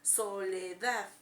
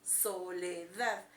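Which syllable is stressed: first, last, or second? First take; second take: last; last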